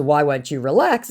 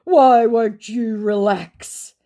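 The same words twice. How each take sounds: First: Said in the usual way. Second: High, loud, drawn-out plea; slow, exaggerated scammer voice; mock scammer. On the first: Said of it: "And in response to". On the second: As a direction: drag it out as an exasperated scammer. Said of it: "said my scammer".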